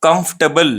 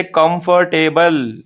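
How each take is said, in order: First: "कंफर्टेबल" compact, KUMF-tuh-bul; no "er", no "table" in "कंफर्टेबल"; right pronunciation. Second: "कंफर्टेबल" slow, kum-far-TAY-bul; how not to say it. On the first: Teacher contrasts right with wrong, short "कंफर्टेबल". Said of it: "और ये right है". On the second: Teacher shows how we misread, stretched-out "कंफर्टेबल". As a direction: stretch every syllable, full "table" in "कंफर्टेबल". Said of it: "ऐसा नहीं पढ़ना है". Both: Shown as a demonstration.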